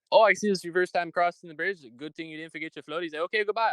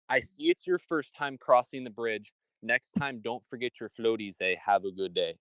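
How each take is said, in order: First: High, rapid-fire toll collector teasing; toll booth guy. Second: Toll booth guy retold slowly. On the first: Retold or imitated. Toll collector teasing a first-time driver, high and quick. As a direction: rattle it off high like a cheeky toll booth man. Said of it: "he goes". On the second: Retelling the toll man's joke to a friend, slowed down. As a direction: spell out his words slowly, lightly voiced. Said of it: "he said".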